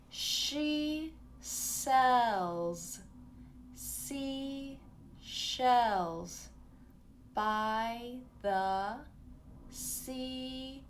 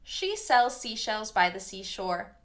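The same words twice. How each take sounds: First: It is said slowly, over-enunciated. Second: It is said fast.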